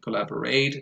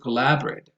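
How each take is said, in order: First: The stress falls on the last syllable. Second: The stress falls on the second syllable. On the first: The speaker calls it wrong. "I hear some learners say communicate and collaborate" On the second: The speaker calls it right. "and also collaborate"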